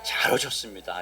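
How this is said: The greeting sounds warm and heartfelt.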